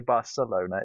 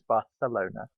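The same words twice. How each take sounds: First: The 'c' is said as an s sound. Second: The 'c' is said as a th sound. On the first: The speaker calls it wrong. "You don't say Barcelona" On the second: The speaker calls it right. "Because the Spanish like to put th like Barcelona"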